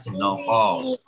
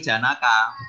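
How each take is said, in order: First: The later vowels sound like o. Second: The later vowels sound like a. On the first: "dibaca dalam bahasa Jawa dibacanya Jenoko" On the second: "tulisannya Janaka"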